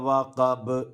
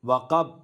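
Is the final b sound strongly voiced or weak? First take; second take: strong; weak. First: The final b is strongly voiced and bounces. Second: The final b is soft and barely voiced. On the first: The speaker calls it right. "ബാഇനെ നന്നായി ശബ്ദത്തോടെ ഉച്ചരിക്കണം" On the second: The speaker calls it wrong. "വഖബ് വഖബ് എന്ന് പറഞ്ഞാൽ പോരാ"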